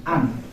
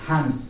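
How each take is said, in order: First: An said with no h sound; correct an. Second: Han said with a sounded h; wrong han. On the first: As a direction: say an with a silent h. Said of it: "again an". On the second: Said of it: "not han". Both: Shown as a demonstration.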